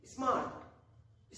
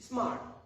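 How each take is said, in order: First: smart stretched out very slowly; slow demo. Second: Said in the usual way. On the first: Shown as a demonstration. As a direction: draw out smart as one long syllable. (Smart बहुत धीरे खींचकर) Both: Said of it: "जैसे बोलते देखिए".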